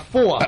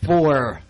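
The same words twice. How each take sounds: First: It is said in a New York accent. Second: It is said in a Southern accent. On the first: "my New York accent" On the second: "Normal way here"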